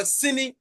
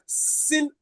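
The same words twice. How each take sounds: First: "sini" with the final i sounded; full form "sini", vowel at the end; two syllables. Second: "sin" with no final vowel; one-syllable Fanti "sin"; Fanti pronunciation. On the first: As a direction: say "sini" as si plus ni. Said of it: "it is made up of two syllables". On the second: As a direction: say "sin" ending on the n. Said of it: "is pronounced sin in Fanti". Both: Shown as a demonstration.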